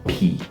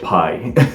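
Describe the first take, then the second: First: The vowel sounds like 'ee'. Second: The vowel sounds like 'eye'.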